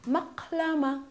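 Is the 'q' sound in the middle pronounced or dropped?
pronounced. The middle 'q' sound is clearly pronounced. This is the standard form of the word. "This is called maqlama"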